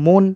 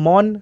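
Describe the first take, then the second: First: The vowel is an 'o' sound. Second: The vowel is an open 'a' sound. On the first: This is how people actually say it. "সেখানে আমরা বলি মন" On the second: This is how the spelling suggests it. "ম দন্তে ন মন"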